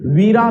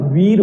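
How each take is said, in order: First: "वीरा" with a long final aa, the wrong way; wrong form. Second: "वीर" ending short on र; correct form. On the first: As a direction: drag out the end of "वीरा". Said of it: "वीरा नहीं होता". ("वीरा" लंबे आ के साथ, गलत रूप) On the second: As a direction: close "वीर" crisply on र. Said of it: "वीर होता है". ("वीर" छोटा, सही उच्चारण) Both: Shown as a demonstration.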